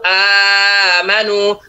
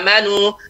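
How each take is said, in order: First: The long vowel is held for four beats. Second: The long vowel is held for two beats.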